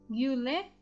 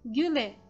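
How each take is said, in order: First: A distinct y-glide comes before the vowel. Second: No separate y-glide comes before the vowel. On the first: The speaker calls it wrong. "Gyu, güle é errado" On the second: The speaker calls it right. "É güle"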